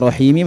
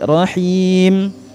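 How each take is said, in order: First: The word ends with a short i vowel. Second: The word ends on the m sound. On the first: The reading runs on into the next verse. "Rahimi menjadi Rahim" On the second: The reading stops at the end of the verse. "Itu cara waqafnya"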